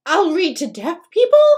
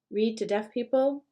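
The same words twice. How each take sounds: First: Higher, much louder flailing suggestion; wild desperate offer. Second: Said in the usual way. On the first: A narrator's reading. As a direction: son grasping for anything to offer. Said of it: "he's casting about wildly". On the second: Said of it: "Can he actually hear what he's saying?".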